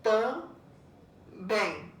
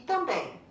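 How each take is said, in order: First: "Também" split into tam, pause, bém; syllable by syllable. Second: Said in the usual way. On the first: Shown as a demonstration. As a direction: say "Também" as two slowly separated syllables. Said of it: "quando você separar, vai ficar". ("Também" separado em sílabas: tam... bém) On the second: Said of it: "Separar a sílaba dessas duas palavrinhas".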